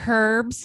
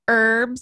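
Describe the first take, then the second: First: The word is said in an Australian way. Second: The word is said in a non-Australian way.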